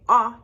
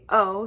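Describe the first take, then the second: First: The vowel is a short, open sound. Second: The vowel sounds like the letter's name. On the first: The speaker calls it wrong. "you wouldn't say ah" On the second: The speaker calls it right. "you would say O"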